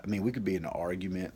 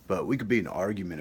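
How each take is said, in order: First: "we" leans a bit forward, quick pace; stress on we. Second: "be" punched, then falls, fast and a bit louder; stress on be. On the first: Brother talking of sibling fights, stress on "we". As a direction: tip the weight onto "we". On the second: Insisting siblings can argue, stress on "be". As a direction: hit "be", then let it fall. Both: Shown as a demonstration.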